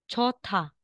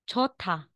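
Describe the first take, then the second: The two takes are said the same way.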